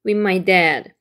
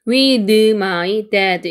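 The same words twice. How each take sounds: First: Said in the usual way. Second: "With" said very slowly with an extra vowel, "widɯ"; slow wrong "With my dad". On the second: Shown as a demonstration. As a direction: overpronounce "With" like the mistake. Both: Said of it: "이게 아니고요".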